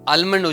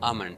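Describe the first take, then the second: First: The L sound is pronounced. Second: The L sound is silent. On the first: The speaker calls it wrong. "આપણે આલમંડ ઉચ્ચાર કરીએ છીએ" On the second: The speaker calls it right. "એલ silent છે"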